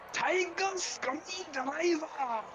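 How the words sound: It is shouted in a put-on Japanese accent.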